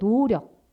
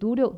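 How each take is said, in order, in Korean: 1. 첫 모음을 길게 늘여서 발음해요. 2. 첫 모음을 짧고 평범하게 발음해요.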